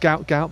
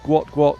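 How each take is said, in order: First: The name is said the commonly used way. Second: The name is said the originally intended way. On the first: This is how most people say the name. "it's typically pronounced Gout Gout" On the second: This is how the name was meant to be said. "the the original intended pronunciation"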